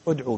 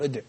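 First: "ادعو" ending in a u vowel after ع; damma on the ع. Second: "ادع" cut off on a vowelless ع, no final u; final vowel dropped. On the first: Teacher giving the correct imperative, "ادعو" with damma kept on ع. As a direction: sound the final u of "ادعو". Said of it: "ادعو بضم العين". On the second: Teacher imitating brothers who overdo the deletion, "ادع" with silent ending. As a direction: end "ادع" right on the consonant ع. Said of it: "يبالغ في ذلك فيحذف مع الواو الضمة". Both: Shown as a demonstration.

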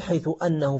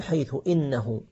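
First: أنه said annahu, opening with an a; open hamza. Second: إنه said innahu, opening with an i; kasra on hamza. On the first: Teacher showing students what not to say, a-vowel on أنه. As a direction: start أنه on a short a. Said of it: "ما تقول". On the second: Teacher correcting to the proper form after haythu, i-vowel on إنه. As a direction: start إنه on a short i. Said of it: "من مواضع كسر إن". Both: Shown as a demonstration.

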